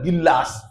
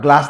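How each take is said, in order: First: The word is said as two syllables. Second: The word is said as one syllable. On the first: "ते म्हणतात गिल्लास" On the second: "ते असा ग्लास नाही म्हणतात"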